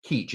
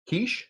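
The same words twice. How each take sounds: First: "Keach" said as "Keech", ending in a hard ch; "Keach" settled on as "Keech". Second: "Keach" said as "Keesh", ending in a soft sh; "Keach" tried out as "Keesh". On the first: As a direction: say "Keach" with a ch as in "beach". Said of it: "It has to be Stacy Keach". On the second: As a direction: say "Keach" with sh for the ch, high and questioning. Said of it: "There's no way his name is Stacy Keach". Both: Shown as a demonstration.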